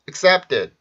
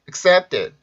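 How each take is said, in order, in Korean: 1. 이어지는 자음은 경음이에요, 뻣뻣하게 들려요. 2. 이어지는 자음은 경음이에요, 뻣뻣하게 들려요.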